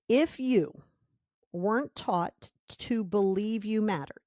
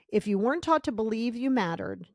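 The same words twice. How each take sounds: First: It is said slowly. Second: It is said fast.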